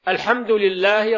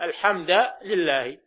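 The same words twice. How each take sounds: First: The word 'hamd' ends with the vowel 'u'. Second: The word 'hamd' ends with the vowel 'a'. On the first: The speaker calls it right. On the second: The speaker calls it wrong.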